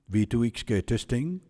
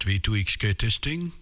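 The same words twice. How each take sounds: First: The voice is dry, with no compression or reverb. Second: The voice is compressed and has added reverb. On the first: "Dynamic compressor is off" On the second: "Ozone five reverb is on"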